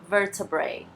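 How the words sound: British accent, with a clear t sound. "Se fosse um inglês mais britânico, a gente pode falar"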